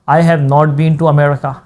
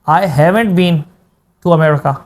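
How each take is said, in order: First: "Have not" is said as two full words. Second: "Have not" is squeezed into one word. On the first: "एक ये तरीका है, simple तरीका है।" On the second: "contraction वाली language"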